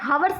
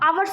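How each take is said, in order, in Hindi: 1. इस शब्द की शुरुआत 'h' ध्वनि से होती है। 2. इस शब्द की शुरुआत स्वर ध्वनि से होती है। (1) "हावर्स नहीं बोलते हैं" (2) "आवर्स बोलते हैं"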